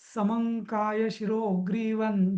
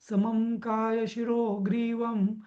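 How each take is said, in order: First: The nasal endings are said as an n sound. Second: The nasal endings are said as an m sound. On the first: "या यांनी म्हटलं तसं" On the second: "सगळीकडे म केलेला आहे"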